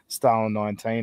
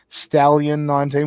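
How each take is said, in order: First: The name sounds like Stalin, without an extra syllable. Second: The name sounds like stallion, the word for horse. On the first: The speaker calls it wrong. "I like saying Stalin nineteen" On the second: The speaker calls it right. "it's pronounced Stallion"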